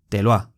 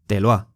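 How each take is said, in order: Both takes have the same delivery.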